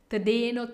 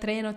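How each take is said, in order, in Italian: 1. La consonante dopo la t è una d. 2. La consonante dopo la t è una r. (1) "Prova a dire tdeno con la lettera D" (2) "vedrai che con molto allenamento migliorerai la tua R"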